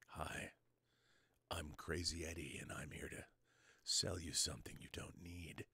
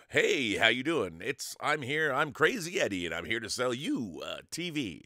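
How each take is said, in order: First: Soft, low whisper, much softer; hushed salesman whisper; whispered pitch. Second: Booming huckster voice; loud pitchman voice. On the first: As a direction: whisper the sales line like a secret. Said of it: "speak like this". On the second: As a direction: sell it like a TV ad announcer. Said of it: "I can do different things with my voice". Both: Shown as a demonstration.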